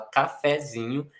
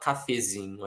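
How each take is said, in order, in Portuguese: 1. A segunda vogal é aberta. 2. A segunda vogal é fechada. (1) "a gente fala cafezinho ... com essa vogal aberta" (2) "A gente não fala cafezinho"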